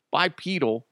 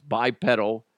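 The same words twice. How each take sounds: First: "Bipedal" with PEE in the middle; long-e pronunciation. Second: "bipedal" with PED as in pedal; short-e pronunciation. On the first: Podcaster corrects himself, "Bipedal" with a long e. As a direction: say "Bipedal" as bye-PEE-dal. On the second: Unsure podcaster tries the word, "bipedal" rhyming with medal. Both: Shown as a demonstration. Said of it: "Is it pedal or pedal?".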